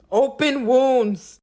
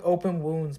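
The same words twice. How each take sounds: First: "Open wounds" drawn out slowly, higher and louder; emphatic repeat. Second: Said in the usual way. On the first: Real, not acted. Client telling of her botched manicure, "Open wounds" slow, loud and emphatic. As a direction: stretch both words of "Open wounds" with loud disbelief.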